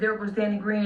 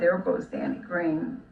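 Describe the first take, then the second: First: It is said in a fearful, wary tone. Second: It is said warmly, with a smile.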